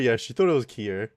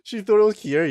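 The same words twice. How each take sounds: First: Said in the usual way. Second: Higher, louder incredulous echo; surprised question. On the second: Real, not acted. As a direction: repeat it back in real surprise. Repeats a surprising question back.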